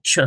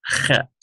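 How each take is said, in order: First: "ch" said like the English ch in church, not from the throat; English ch as the wrong version. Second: "chet" with a rasping kh from the back of the throat; guttural chet. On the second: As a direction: scrape the start of "chet" in the throat like a hoarse H. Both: Shown as a demonstration. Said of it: "It's not ch".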